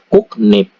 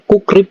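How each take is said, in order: First: The syllables join with a k then n sound. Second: The syllables join with a k then r sound. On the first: "Kukrip dibaca kuknip" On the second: "ini kan bacanya kukrip ya"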